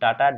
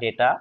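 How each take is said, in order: First: The first vowel sounds like 'ah'. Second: The first vowel sounds like 'ay'.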